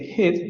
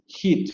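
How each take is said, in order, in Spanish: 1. La vocal está en su posición normal. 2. La vocal está más adelantada. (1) "En lugar de decir" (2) "van a adelantar"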